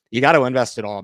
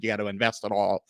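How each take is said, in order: First: Louder, pushing hard on gotta; louder insistent repeat. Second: Said in the usual way. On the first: Retold or imitated. Mocking critics, he repeats their advice louder. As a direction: hammer the advice home, louder.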